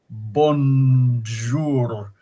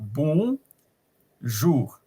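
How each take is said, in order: First: It is said with an English accent. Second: It is said with a French accent. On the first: "the English way of saying bonjour" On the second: "but it's a bon jour"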